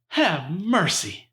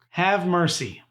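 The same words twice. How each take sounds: First: It is said in an imitated character voice. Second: It is said in the speaker's ordinary voice. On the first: "I can't really do the voice very good, but that's how he'd say it" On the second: "I'm not even gonna do the voice"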